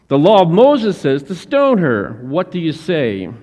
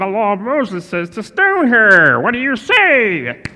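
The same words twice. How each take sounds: First: It is read in the speaker's plain voice. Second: It is said in a put-on character voice.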